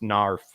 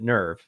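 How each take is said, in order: First: The word ends with an f sound. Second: The word ends with a v sound. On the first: This is the supposedly correct German pronunciation. "technically supposed to be pronounced narf like that" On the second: This is how the original creators pronounced it. "the Japanese pronounced it nerve"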